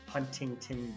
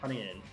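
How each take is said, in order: First: The T sound is clearly pronounced. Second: The T sound is dropped. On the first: The speaker calls it wrong. "we would never never say like" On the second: The speaker calls it right. "It's like"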